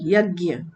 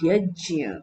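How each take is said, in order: First: The middle is said with a g sound, gya. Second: The middle is said with a j sound, jya. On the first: The speaker calls it wrong. "गलत है" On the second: The speaker calls it right. "इसका pronunciation क्या होना चाहिए?"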